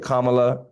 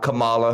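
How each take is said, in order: First: The name is pronounced the politician's way. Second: The name is pronounced the wrestler's way. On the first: The speaker calls it right. "just like we wanted to say Kamala, correct?" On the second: The speaker calls it wrong. "Not Kamala, like the W W E wrestler"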